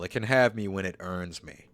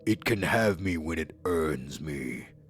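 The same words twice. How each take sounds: First: It is said in the speaker's ordinary voice. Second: It is said in a put-on character voice.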